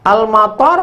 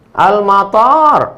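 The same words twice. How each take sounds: First: Al-mator with a short last vowel; quick high Al-mator, nothing stretched. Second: Al-mator with the last vowel held long; slow, high Al-mator with a drawn-out ending. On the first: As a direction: keep the final syllable of Al-mator brief. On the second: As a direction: stretch the final syllable of Al-mator. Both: Shown as a demonstration.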